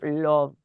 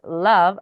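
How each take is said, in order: First: The vowel is a rounded 'o' sound. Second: The vowel is an open 'uh' sound. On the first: The speaker calls it wrong. "and not love" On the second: The speaker calls it right. "That is love"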